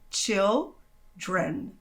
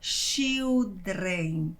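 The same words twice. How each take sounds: First: It starts with chill, English style. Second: It is read as written, Brazilian style. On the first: The speaker calls it right. "observe que aqui o som é chill" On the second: The speaker calls it wrong. "a sua tendência é ler do jeito que está escrito"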